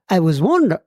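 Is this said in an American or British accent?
British. It is said in a put-on British accent.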